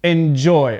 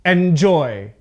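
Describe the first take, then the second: First: EnJOY, "Enjoy" with the end punched; "Enjoy" with weak first syllable, strong JOY; stress on second syllable. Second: ENjoy, "enjoy" with a punched start; strong EN, unstressed JOY in "enjoy"; stress on first syllable. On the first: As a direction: lean on the last syllable of "Enjoy". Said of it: "pronounce this word correctly". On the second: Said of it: "mispronouncing the word on purpose". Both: Shown as a demonstration.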